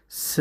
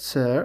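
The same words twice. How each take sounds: First: "ሰ" ending on an open vowel, no r; British r-less "sir". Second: "ሰር" with a sounded final r; American r. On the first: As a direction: leave the r off "ሰ". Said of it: "ኣሜሪካን እንተኮይኖም ከ ሰር". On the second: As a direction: finish "ሰር" on a clear r. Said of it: "ር እዮም ድምፂ". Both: Shown as a demonstration.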